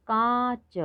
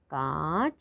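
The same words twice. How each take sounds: First: High model word. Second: Said in the usual way. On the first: Shown as a demonstration.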